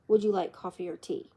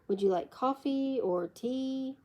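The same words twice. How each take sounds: First: The pitch rises on the word tea. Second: The pitch falls on the word tea. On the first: More alternatives may follow in the list. "If the pitch of the voice rises on both coffee and tea" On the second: The choice is only between coffee and tea. "If it falls, then you are being offered a choice between coffee and tea"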